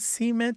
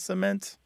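First: It is said the Southern American way. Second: It is said the Canadian way. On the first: This is a regional dialect feature. "More common in the American South" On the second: This is the usual form elsewhere. "your Canadian spouse"

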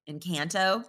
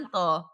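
First: It is said with a hard American A. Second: It is said with Spanish-style vowels.

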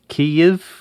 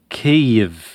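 First: The name is said the Ukrainian way. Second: The same.

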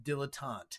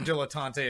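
First: The final E is silent. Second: The final E is pronounced.

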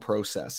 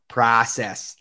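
First: The word is said with a Canadian pronunciation. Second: The word is said with an American pronunciation. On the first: "I said process because I hang out with far too many Canadians" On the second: "instead of saying it like an American"

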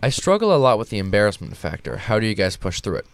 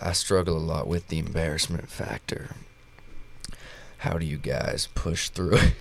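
First: It is read in his natural voice. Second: It is read in a put-on impression voice.

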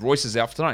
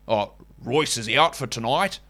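First: It is said in a natural Australian accent. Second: It is said in an exaggerated fake Australian accent.

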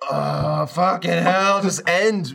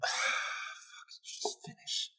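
First: It is said loudly. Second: It is said quietly, with a sigh.

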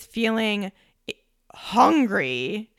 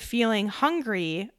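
First: It is said with strong, intense emphasis. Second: It is said in a mild, even way. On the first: The hunger is overwhelming. "notice the difference there" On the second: The hunger is slight and normal. "notice the difference there"

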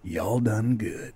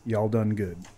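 First: It is said in a put-on character voice. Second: It is said in the speaker's normal voice.

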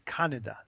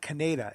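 First: The name is said with a Japanese pronunciation. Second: The name is said with an American pronunciation. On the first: The speaker calls it right. "That's right, how you pronounce the name" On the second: The speaker calls it wrong. "the character's name is not Kaneda"

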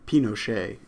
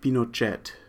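First: The name is pronounced in a French manner. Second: The name is pronounced in a Spanish manner. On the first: "in the French fashion" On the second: "in the Spanish way"

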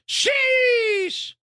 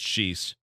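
First: The word starts high and fades long and low. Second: The word is said short with level pitch. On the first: The speaker calls it right. "Starts in a higher pitch, then long fades at a lower pitch" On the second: The speaker calls it wrong. "Sheesh isn't pronounced as just sheesh"

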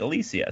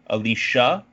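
First: The middle of the name has no 'sh' sound. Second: The middle of the name has a 'sh' sound. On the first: This is the way Romance languages say it. "interesting and fun pronunciations like" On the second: This is the English-Germanic way to say it. "it's an English-Germanic thing to go sha there"

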